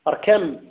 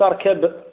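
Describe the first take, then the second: First: The word ends with an m sound. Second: The word ends with a b sound. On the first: The speaker calls it right. "اركم وليس اركب" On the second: The speaker calls it wrong. "وليس اركب"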